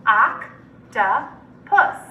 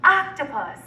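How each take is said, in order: First: Octopus in three separate syllables, long pauses. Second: Said in the usual way. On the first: Shown as a demonstration. Teacher breaking Octopus up for students, syllable by syllable. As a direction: slowly split Octopus into oc, to, pus. Syllable blending drill, word broken up.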